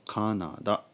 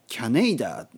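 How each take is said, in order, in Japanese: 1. 普通の ka、na、da の音で言います。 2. kya で始まり、次に長い nei が続きます。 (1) "日本語で言うとカナダ" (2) "キャネイダは言わないですよね"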